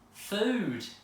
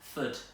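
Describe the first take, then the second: First: The vowel is a long oo sound. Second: The vowel is a short, clipped sound. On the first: The speaker calls it right. "That sounds much better" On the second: The speaker calls it wrong. "starting with the short one"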